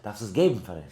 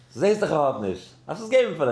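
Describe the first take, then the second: First: Said in the usual way. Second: Raised voice, high and loud; emphatic retold rebuke. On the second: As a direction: imitate the Rebbe insisting forcefully. Rebbe's line repeated with force.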